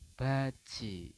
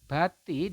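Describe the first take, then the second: First: The middle consonant is a j sound. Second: The middle consonant is a plain t sound. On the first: "dibacanya adalah baji" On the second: "Yang ini juga sama"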